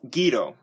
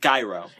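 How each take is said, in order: First: The word is said the Greek way. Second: The word is said the English way. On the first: "Greek pronunciation is" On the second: "the English pronunciation is"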